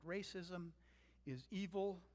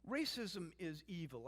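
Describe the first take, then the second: First: "Racism" set apart, pause, then "is evil." landing firmly; deliberate restatement. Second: Said in the usual way. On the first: Shown as a demonstration. Preacher repeating to congregation, slow and deliberate, pause before "is evil.". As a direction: split it: "Racism", beat, "is evil.". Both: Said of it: "I can say it no plainer than that".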